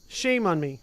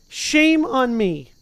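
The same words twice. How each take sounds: First: Said in the usual way. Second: A drawn-out mock groan of self-blame; slow self-scolding. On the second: Shown as a demonstration. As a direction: stretch it out slowly, a little louder and higher.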